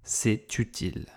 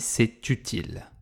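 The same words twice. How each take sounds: Both takes have the same delivery.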